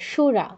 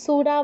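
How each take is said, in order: First: The word begins with a hushing sh sound. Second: The word begins with a hissing s sound. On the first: The speaker calls it right. "তালব্যস্য দন্তস্বর মতো উচ্চারণ করা যাবে না" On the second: The speaker calls it wrong. "সুরা বলা যাবে না"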